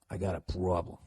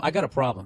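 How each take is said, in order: First: Low, quiet Boston accent; Boston-accented aside. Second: Said in the usual way. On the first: Shown as a demonstration. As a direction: slip into a soft Boston accent. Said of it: "the Boston accent kinda came back".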